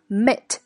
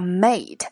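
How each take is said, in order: First: The syllable has a weak, reduced vowel. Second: The syllable has a full vowel like 'mate'. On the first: The speaker calls it right. "而是mate" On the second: The speaker calls it wrong. "它不读作mate"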